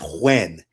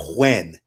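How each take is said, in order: First: The name is said like 'Huen'. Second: The name is said like 'Huen'.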